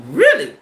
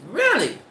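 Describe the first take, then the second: First: High, loud incredulous really; can't believe what she just heard; shocked disbelief. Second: Said in the usual way. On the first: Real, not acted. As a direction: squeal of disbelief.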